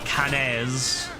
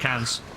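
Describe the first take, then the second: First: The name is said with an exaggerated pronunciation. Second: The name is said plainly, without exaggeration.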